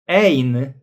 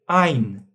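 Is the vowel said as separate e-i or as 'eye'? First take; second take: separate e-i; eye. First: The vowels e and i are said separately. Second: The vowels blend into one 'eye' sound. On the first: The speaker calls it wrong. "we don't say ein" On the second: The speaker calls it right. "but we say ein"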